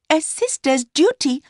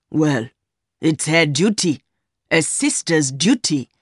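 First: Put-on high-pitched young woman's voice; Mercy, answering back. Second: Lightly voiced man near the narrator's pitch; older man, dismissive. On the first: Mistress throwing her lover's words back, high young woman's voice. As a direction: echo him in a much higher voice. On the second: Man dismissing what the sister did, lightly voiced older lover. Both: A narrator's reading.

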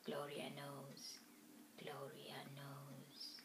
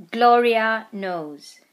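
First: Slow, hushed Gloria knows; whispering. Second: Slow announced title: GLORIA KNOWS; chapter title read. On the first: A narrator's reading. Whispered echo of title. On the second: Shown as a demonstration. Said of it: "chapter twenty-nine".

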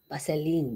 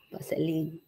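First: Lightly voiced student asking for the link; a hint of a lazy pupil's voice; mock student request. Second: Amused laughing repeat. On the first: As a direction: parrot the pupil's request in a put-on voice. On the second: Real, not acted.

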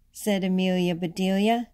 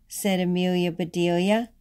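The two takes are said the same way.

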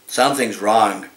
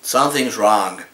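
No difference in how they are said.

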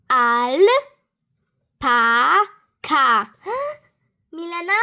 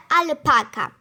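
First: "Alpaka" as "al", "pa", "ka" with long pauses; "Alpaka" broken syllable by syllable; split into syllables. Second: Said in the usual way. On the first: Shown as a demonstration. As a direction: count out "Alpaka" in three separate beats.

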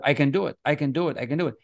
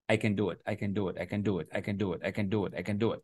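First: Bright repeated I can do it, pitched up a little; upbeat affirmation. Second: Much softer, muttered I can do it over and over; quiet repeated mantra. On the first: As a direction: say it like you mean it each time. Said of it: "And I tell myself". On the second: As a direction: mumble it to yourself like a rote chant. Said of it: "repeating an idea in the morning". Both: Shown as a demonstration.

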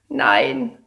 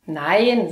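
First: High, whiny little no; whimpering child. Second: Said in the usual way. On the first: Acted. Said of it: "winselt Paula". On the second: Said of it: "sage ich".

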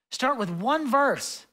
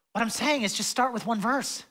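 First: Slow emphatic repeat. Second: Said in the usual way. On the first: Shown as a demonstration. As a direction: Start with one verse said slowly, word by word.

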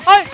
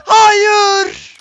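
First: Said in the usual way. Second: Much higher, much louder drawn scream of no; real anguished scream. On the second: Real, not acted. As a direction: scream it as you lose. Losing fight, screaming.

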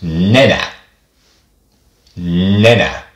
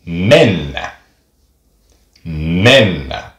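First: Nenä with a quick single n; short Finnish n. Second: Mennä with the nn held; long Finnish n. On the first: Teacher demonstrating the short n in nenä. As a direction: say nenä straight away, ne-nä. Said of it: "The short sound of that". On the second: Teacher demonstrating the long n in mennä. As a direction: hold the n in mennä, mennnä. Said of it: "the long sound of N". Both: Shown as a demonstration.

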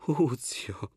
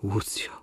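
First: Łucjo whispered, breathy and voiceless; whispered Łucjo, tender plea. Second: Said in the usual way. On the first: Acted.

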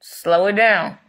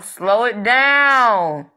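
First: Said in the usual way. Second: Drawn out, slow and a little louder; stretched-out slow. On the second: Shown as a demonstration. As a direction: stretch every word of slow it down. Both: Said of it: "if y'all going so fast".

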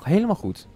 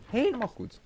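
First: Said in the usual way. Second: High, soft voice; softly approving, pitched way up; high-pitched approval. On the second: Real, not acted. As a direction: lift the pitch right up and ease off the volume. Repeats approval higher and softer.

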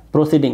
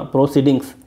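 First: "प्रोसीडिंग" ending on ng, no s; singular without final s. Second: "प्रोसीडिंग्स" with s after the ng; plural with final s. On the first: Teacher warning against the word, final s missing. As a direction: say "प्रोसीडिंग" with the s left off. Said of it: "इस word को मत बोलना". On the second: Teacher giving students the word to repeat, final s sounded. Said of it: "पढ़ो इसको बार बार". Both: Shown as a demonstration.

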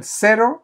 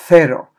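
First: Said in the usual way. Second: Cero said as "thero"; lisped C. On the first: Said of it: "som ett S-ljud eller ett läspljud". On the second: Shown as a demonstration. Teacher shows how most of Spain says it, cero with a lisped th. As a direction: put the tongue between the teeth for a th in cero. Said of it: "då skulle cero bli".

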